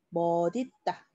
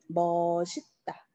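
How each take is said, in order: First: The middle consonant sounds like d. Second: The middle consonant sounds like s. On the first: This is the pronunciation by the principle. "얘도 마찬가지로" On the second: This is how many people say it. "요렇게 발음하시는 분들이 또 많아요"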